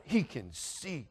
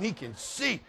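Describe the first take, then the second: First: Slow, soft, drawn-out words; stunned realization. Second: Higher, astonished repeat; indignant realization. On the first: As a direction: let the shock dawn slowly. Stunned realization, first take. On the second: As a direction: pitch it up in disbelief. Realization repeated with rising outrage. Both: Retold or imitated.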